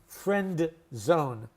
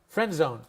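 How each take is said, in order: First: The D at the end of 'friend' is pronounced. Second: The D at the end of 'friend' is dropped. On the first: The speaker calls it wrong. "we don't pronounce it" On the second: The speaker calls it right. "no D is pronounced"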